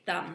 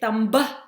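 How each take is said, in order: First: The word ends on the M with no B. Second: The final B is sounded, adding an extra syllable. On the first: The speaker calls it right. "We say thumb" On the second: The speaker calls it wrong. "Do we say thumba? No, we don't say thumba"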